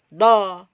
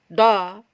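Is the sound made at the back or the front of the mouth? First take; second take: back; back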